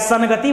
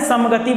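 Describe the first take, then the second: First: The nasal before 'gati' is an ng sound. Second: The nasal before 'gati' is an m sound. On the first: The speaker calls it right. "संगति बोलना चाहिए" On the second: The speaker calls it wrong. "कहे ना समगति बोले"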